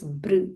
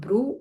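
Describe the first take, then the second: First: The syllable ends on r with no u vowel. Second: The r is followed by a clear u vowel. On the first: The speaker calls it right. "it is Br" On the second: The speaker calls it wrong. "It's not Bru"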